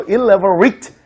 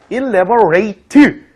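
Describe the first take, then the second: First: "elaborate" ending in a short "-rit"; "elaborate" with a short, weak final vowel, not "rate"; adjective pronunciation. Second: "elaborate" ending in a full "-rate"; "elaborate" with a long "ay" in the final syllable; verb pronunciation. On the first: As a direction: say "elaborate" as an adjective, last syllable reduced. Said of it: "이런 식으로 얘기해주면 이제 형용사형을". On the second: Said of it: "이렇게 발음되면 동사형을 얘기해주고요". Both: Shown as a demonstration.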